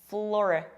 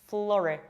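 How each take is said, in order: No difference in how they are said.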